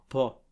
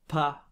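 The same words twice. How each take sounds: First: The vowel is a blend between A and O. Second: The vowel is a clear, open A sound. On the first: The speaker calls it right. "c'est un pas" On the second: The speaker calls it wrong. "c'est pas pas non plus comme en français, parce qu'on n'ouvre pas la bouche pour articuler le A"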